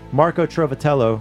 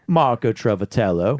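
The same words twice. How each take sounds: First: The name is said in a plain accent. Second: The name is said in a Southern drawl.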